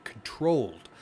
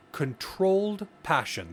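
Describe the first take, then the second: First: Said in the usual way. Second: Controlled drawn out high and slow; stress on controlled. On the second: Shown as a demonstration. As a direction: lean hard on controlled, stretch it slowly. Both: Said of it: "That is an important word here".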